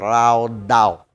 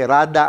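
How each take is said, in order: First: The word ends in a long 'aw' sound. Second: The word ends in a short 'ah' sound. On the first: This is how it is actually pronounced. "pero actually pag-pronounce siya" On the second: This is how it is read from the spelling. "rada ang pagbasa natin"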